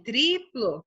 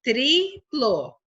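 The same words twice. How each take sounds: First: Said in the usual way. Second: TRIPLO split into tri and plo; separated syllables in "triplo". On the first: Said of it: "Olha, nessa palavra aqui". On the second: Shown as a demonstration. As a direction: say "triplo" in two drawn-out beats. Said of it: "cada sílaba".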